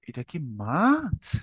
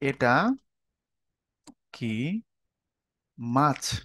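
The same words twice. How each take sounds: First: It is said with a tone of amazement. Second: It is said as a plain asking question. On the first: The speaker is amazed at how big it is. "অবাক হয়ে গেছো" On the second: The speaker wants to know what the thing is. "মানে মাছ না সাপ না ব্যাঙ তুমি জানতে চাচ্ছ"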